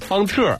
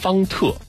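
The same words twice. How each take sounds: First: The word ends with an r-colored sound. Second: The word ends without an r-colored sound. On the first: It feels especially warm and friendly. "感觉特别的亲切" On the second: It gives one kind of feeling. "如果不加儿化音，是一种感觉"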